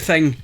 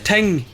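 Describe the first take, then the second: First: The word begins with a th sound. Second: The word begins with a plain t sound. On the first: This is how people in Scotland say it. "we tend to pronounce the T and the H" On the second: Someone else's accent is imitated. "at least that's what he called it"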